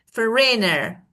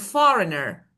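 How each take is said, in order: First: The stress is on the second syllable. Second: The stress is on the first syllable. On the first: The speaker calls it wrong. "if it were like on the second part, I would pronounce it this way" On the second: The speaker calls it right. "the first syllable is stressed"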